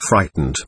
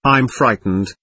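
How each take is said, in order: First: Lower fading repeat. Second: Said in the usual way. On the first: A narrator's reading. Terrified boy to his nurse, a low fading repeat. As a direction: let the second "frightened" sink low and fade.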